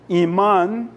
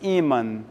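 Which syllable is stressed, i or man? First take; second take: man; i. First: The stress is on the last syllable. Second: The stress is on the first syllable. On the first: "no espanhol é o man que é a tônica" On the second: "no português é apenas o i"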